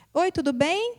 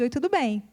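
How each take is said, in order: First: Said in the usual way. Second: Repeats the question back with a falling end; echoed greeting. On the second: Retold or imitated. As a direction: echo it like a statement. (repetindo a pergunta com final descendente) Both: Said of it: "Ele te responde".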